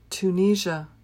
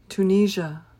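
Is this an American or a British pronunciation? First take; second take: American; American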